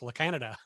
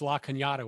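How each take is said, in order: First: The middle consonant is a plain n sound. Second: The middle consonant is a ny sound.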